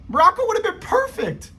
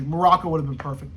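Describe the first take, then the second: First: High, excited insistence. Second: Said in the usual way. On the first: Real, not acted. Vlogger insisting to viewers, high and excited. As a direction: pitch it way up with excitement. Repeats the claim, much higher.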